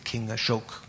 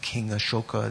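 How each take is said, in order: First: The name ends on the consonant k. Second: The name ends with a final a vowel. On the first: This is the modern Hindi form of the name. "they often drop the final A. ... they say King Ashok" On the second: This is the older form of the name. "Instead of saying King Ashoka"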